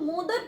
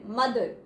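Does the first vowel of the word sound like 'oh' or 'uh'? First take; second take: oh; uh. First: The first vowel sounds like 'oh'. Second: The first vowel sounds like 'uh'. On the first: The speaker calls it wrong. "इसका बहुत लोग मोदर pronounce करते हैं।" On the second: The speaker calls it right. "इसका pronunciation मदर है"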